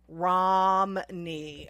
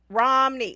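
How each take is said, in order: First: The word is drawn out slowly and deliberately. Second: The word is said at a normal quick pace.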